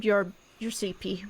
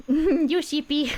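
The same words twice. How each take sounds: First: Said in the usual way. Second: Slow teasing through a laugh. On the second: Real, not acted. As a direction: tease them while laughing. GM repeats it, laughing.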